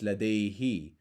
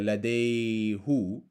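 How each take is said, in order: First: The suffix is pronounced with an i vowel. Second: The suffix is pronounced with a u vowel. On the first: The speaker calls it right. "it's ladayhi, because the last sound is an e sound" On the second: The speaker calls it wrong. "So it's not uh"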